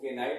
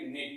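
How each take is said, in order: First: The initial k sound is pronounced. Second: The initial k sound is silent. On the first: The speaker calls it wrong. "के नाइट नहीं पढ़ेंगे" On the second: The speaker calls it right. "इसको पढ़ेंगे निट।"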